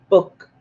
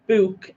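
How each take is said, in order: First: "book" with a short, clipped vowel; others' pronunciation. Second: "book" with a long oo, like booook; own pronunciation. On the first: Retold or imitated. Comparing viewers' accent with own, short "book". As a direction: say "book" short, to rhyme with look. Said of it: "and you say book". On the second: Shown as a demonstration. Comparing own accent with viewers', long-oo "book". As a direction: draw out the oo in "book". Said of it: "Am I saying book".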